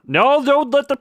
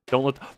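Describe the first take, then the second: First: High, loud panicked cry; alarmed shout. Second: Said in the usual way. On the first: Real, not acted. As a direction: yelp in alarm. Game object about to drop.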